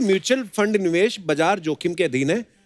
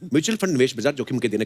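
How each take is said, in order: First: It is said at a normal speed. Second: It is rattled off very fast.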